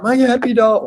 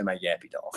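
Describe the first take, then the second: First: High, loud wail of "My yappy dog"; frantic old lady. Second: Said in the usual way. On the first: Retold or imitated. Old lady begs the jogger to save her dog, high wail. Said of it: "She's like". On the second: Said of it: "she didn't say".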